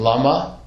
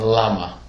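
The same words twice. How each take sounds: First: "lama" as la-MA, rising at the end; stress contrast. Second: "lama" as LA-ma, falling at the end; stress on first syllable. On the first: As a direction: lift "lama" onto its last syllable. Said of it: "What's the difference between lama". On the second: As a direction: drop "lama" away from a heavy LA. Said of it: "it's heavy on the first syllable". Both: Shown as a demonstration.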